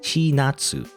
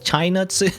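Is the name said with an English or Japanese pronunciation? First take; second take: Japanese; English. First: The name is said with a Japanese pronunciation. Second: The name is said with an English-style pronunciation. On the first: The speaker calls it right. "if you pronounce it in Japanese, it would be like Chinatsu" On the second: The speaker calls it wrong. "not Chinatsu"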